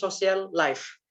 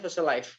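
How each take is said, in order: First: The two L sounds are said separately. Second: The two L sounds merge into one. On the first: This is how a typical Indonesian speaker says it. "orang Indonesia ngomongnya social life" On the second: This is how a foreign speaker says it. "orang asing pasti ngomongnya social life gitu kan. Ya wis kayak jadi satu gitu"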